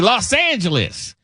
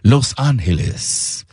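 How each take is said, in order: First: The name is pronounced the English way. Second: The name is pronounced the Spanish way. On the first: "But we say" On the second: "the correct Spanish pronunciation is"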